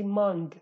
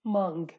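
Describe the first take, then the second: First: The final g sound is clearly pronounced. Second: The same.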